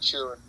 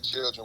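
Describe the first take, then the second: First: It is said in a Florida accent. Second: It is said in a standard accent.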